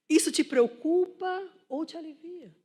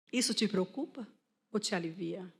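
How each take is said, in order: First: Raised, loud preacher's question; high, emphatic rhetorical question; forceful challenge. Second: Said in the usual way. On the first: Real, not acted. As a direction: press the congregation to reflect. Repeats question forcefully to make them reflect.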